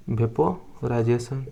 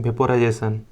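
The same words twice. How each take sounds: First: vaporisation stretched slowly, syllable by syllable; slow drawn-out term. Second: Said in the usual way. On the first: Shown as a demonstration. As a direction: spell out vaporisation slowly for students to write.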